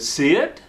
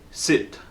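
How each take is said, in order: First: The pitch rises at the end. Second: The pitch falls or stays level. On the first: It sounds like a request or question. The speaker calls it wrong. "with an uptone and inflection, like I'm asking" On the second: It is a command. The speaker calls it right. "Your tonality goes down, or at least stays neutral. It doesn't go up"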